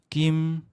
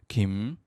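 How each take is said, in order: First: The pitch stays level and unmarked. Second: The pitch wavers up and down. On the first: "첫째 성조가 아무것도 없는 성조예요" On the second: "굴렁거리는 성조"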